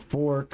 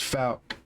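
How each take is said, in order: First: The name sounds like the word fork. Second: The name sounds like fowk, without an r. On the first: The speaker calls it wrong. "A lot of people don't know how to say it. You know, fork or whatever" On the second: The speaker calls it right. "but it's Falk"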